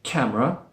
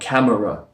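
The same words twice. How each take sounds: First: The middle vowel is dropped completely. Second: The middle vowel is fully pronounced. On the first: "instead of removing it completely" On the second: "Don't say the full sound like camera"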